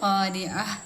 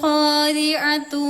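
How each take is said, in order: First: The word ends on a bare vowel, no ending. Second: The word ends with a full 'atu' ending. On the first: The reciter stops on this word. "നമ്മൾ വെക്കുമ്പോ അത് ഖാരിഅ" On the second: The reciter joins it to the next word. "കൂട്ടിയോ ആണെങ്കിൽ"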